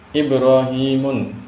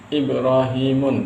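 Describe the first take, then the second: Both takes have the same delivery.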